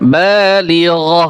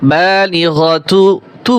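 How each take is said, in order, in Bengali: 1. শব্দটি 'h' ধ্বনি দিয়ে শেষ হয়। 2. শব্দটি 'tu' ধ্বনি দিয়ে শেষ হয়। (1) "হা উচ্চারণ করতে হবে" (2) "বালিগতু তু বলা যাবে না"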